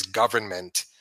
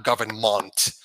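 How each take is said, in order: First: Government with a plain unstressed -ment ending; correct pronunciation. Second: Government with the last syllable said as a full "munt"; drawn out, government ending in a heavy "munt"; mocked wrong pronunciation. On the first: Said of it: "And the word is". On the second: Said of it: "pronouncing M E N T as M U N T". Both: Shown as a demonstration.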